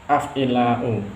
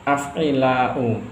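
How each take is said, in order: The two takes are said the same way.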